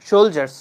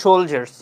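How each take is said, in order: First: The middle consonant is a 'j' sound. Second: The same.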